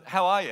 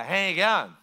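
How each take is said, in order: First: Said in the usual way. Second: Mumbled Australian outback greeting, mouth barely open; lazy rural Australian drawl, words run together; slurred outback Australian. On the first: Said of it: "Like you ask them". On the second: Shown as a demonstration. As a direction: slur it like an Aussie from the outback. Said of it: "the slurring of the speech a little bit".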